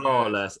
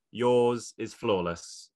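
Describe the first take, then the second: First: Flawless punched, louder; emphatic echo; repeated emphasis. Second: Slow, weighted yours is flawless; deliberate sincere compliment; slow emphatic praise. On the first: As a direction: hit flawless again. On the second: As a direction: lean on every word. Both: Real, not acted. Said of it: "I have to say".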